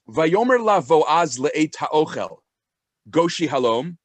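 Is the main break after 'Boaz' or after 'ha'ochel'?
after ha'ochel. The break comes after the word ha'ochel. The speaking happened when it was time to eat. "You can read it like this"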